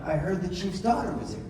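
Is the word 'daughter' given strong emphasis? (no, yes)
yes. The word daughter carries strong emphasis. The speaker calls it right.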